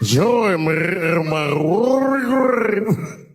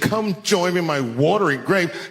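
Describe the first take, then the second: First: It is said with a rolling, gurgling throat. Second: It is said in a plain voice.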